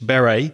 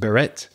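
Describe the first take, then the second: First: The final T is not pronounced. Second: The final T is clearly pronounced. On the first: This is the usual English way to say it. "we don't pronounce the T normally in English" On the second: This is how some other languages say it. "It might be pronounced beret in some languages"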